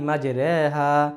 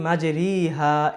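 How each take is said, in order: First: The vowel after r sounds like e. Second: The vowel after r sounds like i. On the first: A special reading rule applies at this one place. The speaker calls it right. "এই নিয়মটার কারণে এই জায়গার মধ্যে শুধুমাত্র আমাদের পড়তে হবে বিসমিল্লাহি মাজরেহা" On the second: The ordinary rule is applied. The speaker calls it wrong. "এটা না পড়ে"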